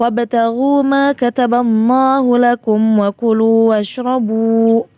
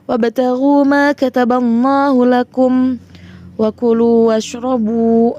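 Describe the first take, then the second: First: It is read straight through without stopping. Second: It stops after lakum, then goes on. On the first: The reader follows the preferred way of continuing. "Itu lambang shad kecil diutamakan wasol" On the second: The reader has run out of breath. "boleh di ini berhenti"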